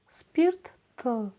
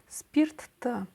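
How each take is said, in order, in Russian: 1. Слово произносится медленно и аккуратно. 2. Слово произносится в обычном темпе.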